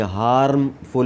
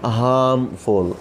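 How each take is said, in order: First: हार्मफुल with a rolled R sounded in it; wrong way with R. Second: हार्मफुल said slowly as hamful, no R at all; silent R. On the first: Teacher showing students the wrong R, rolled R. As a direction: say हार्मफुल with a clear R, as not to do it. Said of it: "यहाँ पे भी आर को नहीं". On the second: Teacher showing students the right way, silent R. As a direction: drop the R in हार्मफुल, slow hamful. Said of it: "आर बिल्कुल समझे कि नहीं है". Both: Shown as a demonstration.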